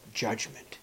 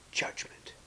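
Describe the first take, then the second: First: Said in the usual way. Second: Judgment whispered, unvoiced and soft. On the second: Shown as a demonstration.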